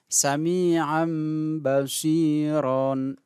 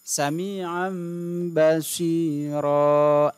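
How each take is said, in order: First: The phrase ends with an n sound. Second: The phrase ends with a long a vowel. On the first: This is how it is written. The speaker calls it wrong. "Tulisannya begitu" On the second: This is how it is read when pausing. The speaker calls it right. "Maka cara membacanya sami'an basiro"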